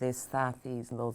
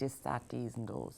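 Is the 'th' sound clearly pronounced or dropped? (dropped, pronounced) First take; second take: pronounced; dropped. First: The th sounds are clearly pronounced. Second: The th sounds are dropped or softened. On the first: "instead of" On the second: "it would be"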